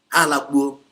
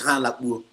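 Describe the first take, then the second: First: Emphatic repeat to listeners; louder repeat. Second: Said in the usual way. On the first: Real, not acted. Phrase repeated, second time louder.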